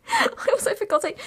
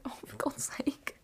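First: High, cracking, laugh-choked repeat; half-crying laughing for God's sake; laughing exasperation. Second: Slow, breathless whispered groan; a defeated whispered oh for God's sake; whispered exasperation. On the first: Real, not acted. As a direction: laugh it out helplessly. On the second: Retold or imitated. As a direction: sigh it out in disbelief. Groaning at dad's cheaper man.

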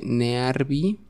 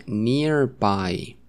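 First: Slow NEARBY as Spanish "ne-ar-bi"; read as spelled. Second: NEARBY as "nir-bai"; English pronunciation. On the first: Teacher showing students the spelling, read as written. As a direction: sound out "nearby" slowly letter by letter, "ne-ar-bi". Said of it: "se escribe nearby". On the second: Teacher modelling the word for students, English pronunciation. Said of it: "pero se pronuncia nearby". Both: Shown as a demonstration.

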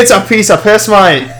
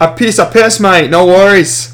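First: Higher-pitched put-on Aussie; hammed-up Australian accent. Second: Attempted Australian coming out Irish, pitched up; accidental Irish accent, slightly hammed-up. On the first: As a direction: say it as a breezy Australian. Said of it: "That was Australian". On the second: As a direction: lilt it like a muddled Irish accent. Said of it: "I said it in an Irish accent".

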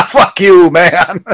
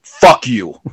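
First: Higher, louder, laughing curse; mock-insult with a laugh in it; friendly joshing. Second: Firm, deliberate, no laugh in it; mean it, as an imitated insult; venomous. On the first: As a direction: toss it out as a laughing jibe between friends. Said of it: "That wasn't like a friendly". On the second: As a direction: curse with rage behind it, imitated. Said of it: "some rage and some passion behind that". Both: Shown as a demonstration.

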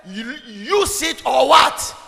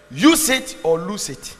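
First: High, loud and drawn out, rising to "what"; prompting question. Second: Slow and loud, falling on "lose it"; emphatic slogan. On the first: Preacher asking congregation to finish the slogan, loud rising prompt. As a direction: stretch "use", then throw "what" up loudly. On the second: Preacher teaching about faith, slow emphatic statement. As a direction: hit "Use" hard, then drop to a firm close. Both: Real, not acted.

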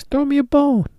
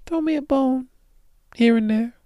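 First: Said in the usual way. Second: Much higher, begging whine; pleading. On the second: Real, not acted. Begging listeners for a favor, high pleading voice. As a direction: beg it in a high voice.

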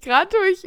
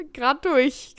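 First: Höher und lauter, begeistert wiederholt. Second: Said in the usual way. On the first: Real, not acted. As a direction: das Ergebnis jubelnd bestätigen. (begeistert wiederholt) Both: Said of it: "überragend".

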